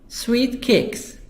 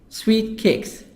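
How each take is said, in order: Both takes have the same delivery.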